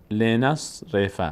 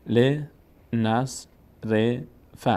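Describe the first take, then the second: First: "ل، نص، ر، ف" run together with shorter breaks; joined-up reading demo. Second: "ل، نص، ر، ف" said one syllable at a time with pauses; syllable-by-syllable demo. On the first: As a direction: join the syllables of "ل، نص، ر، ف" evenly. («ل، نص، ر، ف» سرهم و شمرده) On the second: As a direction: break "ل، نص، ر، ف" into separate syllables. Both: Shown as a demonstration. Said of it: "آخرین حرکت ما قبل میچسبه به صاد".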